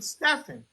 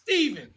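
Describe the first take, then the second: First: The middle consonant is an F sound. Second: The middle consonant is a V sound. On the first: "I pronounced it phonetically Stephen" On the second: "No, that's Steven"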